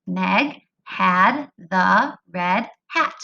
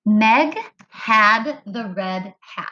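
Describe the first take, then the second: First: Very slow, one word per count; word-counting read. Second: Slow, evenly spaced words; slow modeled reading. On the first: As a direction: space out each word for finger counting. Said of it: "count on your fingers each time". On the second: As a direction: read each word slowly for counting. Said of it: "It said". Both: Shown as a demonstration.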